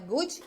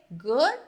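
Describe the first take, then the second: First: "good" with an added i after the D, goodji; "good" said goodji with an extra vowel; wrong pronunciation. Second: "Good" ending on the D, no vowel after; "Good" clipped at the D; correct pronunciation. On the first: Teacher warning students off the wrong form, "good" said goodji. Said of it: "Que não é good". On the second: Teacher giving students the right form, "Good" stopped on the D. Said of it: "é o quê?". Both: Shown as a demonstration.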